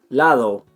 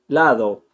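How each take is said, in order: The two takes are said the same way.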